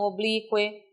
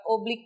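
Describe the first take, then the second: First: "oblique" stressed on BLI, ending in a quick kwe; unstressed U in oblique. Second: "oblique" with a strong U, o-bli-CU-e; stressed U in oblique. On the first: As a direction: glide the U of "oblique" weakly into the E. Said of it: "e não oblique". ("oblique" com o U átono, o-BLI-cue) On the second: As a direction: put the weight on CU in "oblique". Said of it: "A pronúncia é oblique porque é uma sílaba tônica". ("oblique" com o U tônico, o-bli-CU-e) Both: Shown as a demonstration.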